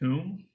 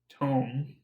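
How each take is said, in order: First: The vowel sounds like the one in 'room'. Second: The vowel sounds like the one in 'home'. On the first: The speaker calls it wrong. "He pronounces it as tomb" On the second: The speaker calls it right. "you know, like the book"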